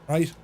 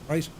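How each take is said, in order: Both takes have the same delivery.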